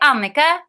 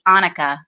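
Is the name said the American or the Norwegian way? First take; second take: Norwegian; American. First: The name is said with a lilting Norwegian melody. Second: The name is said with a flat American pronunciation. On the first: The speaker calls it right. "in Norwegian, they actually say it ... Annika has a beautiful, lovely lilt" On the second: The speaker calls it wrong. "in America, that would be Annika, which is not quite so lovely"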